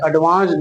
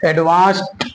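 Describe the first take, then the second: First: The ending is pronounced with a d sound. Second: The ending is pronounced with a t sound. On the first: The speaker calls it wrong. "एडवांस्ड नहीं" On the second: The speaker calls it right. "टा ही बोलेंगे"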